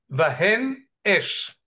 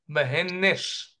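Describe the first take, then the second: First: The two words are kept apart, no linking n. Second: The n runs into the second word, making nesh. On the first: The speaker calls it right. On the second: The speaker calls it wrong.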